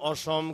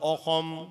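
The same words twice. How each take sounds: First: It is said with a plain Bengali pronunciation. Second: It is said imitating an Assamese pronunciation. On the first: "এত সুন্দর নাম" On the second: "কয়"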